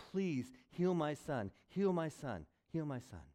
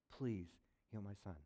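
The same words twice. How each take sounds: First: Pleading. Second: Much softer, worn-out begging; quiet pleading. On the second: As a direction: plead under the breath, spent. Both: Retold or imitated.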